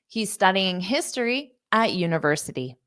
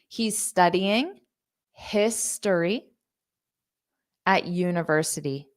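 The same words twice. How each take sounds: First: The sentence is spoken quickly. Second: The sentence is spoken slowly. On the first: "I'll say it fast" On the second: "Now let's say it slow"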